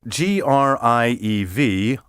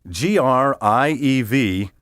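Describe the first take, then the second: The two takes are said the same way.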